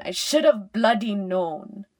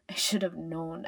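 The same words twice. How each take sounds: First: Loud burst of self-reproach; frustrated outburst. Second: Said in the usual way. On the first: A narrator's reading. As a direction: burst out loudly, angry at yourself. Self-reproach escalates after repeated thought.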